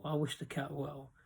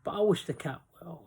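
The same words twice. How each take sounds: First: A quieter, heartfelt echo; softer sincere repeat. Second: Said in the usual way. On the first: Real, not acted. Vlogger signing off to viewers, softer sincere repeat. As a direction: drop the voice as you repeat it.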